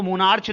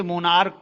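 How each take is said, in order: First: "मोनार्च" ending in a ch sound, as in church; mispronounced monarch. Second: "मोनार्क" ending in a hard k sound; monarch with K. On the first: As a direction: misread the final CH of "मोनार्च" as ch. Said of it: "इसको मोनार्च नहीं पढ़ते". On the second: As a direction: say "मोनार्क" with final CH as k. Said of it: "मोनार्क पढ़ते हैं". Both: Shown as a demonstration.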